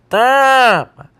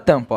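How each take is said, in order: First: The nose is held shut, blocking nasal airflow. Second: Air flows through the nose on the vowel. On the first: "o ar estava passando pelo nariz na hora da fala e eu prendi" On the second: "quando eu falo tampa, eu uso o nariz para produzir o som"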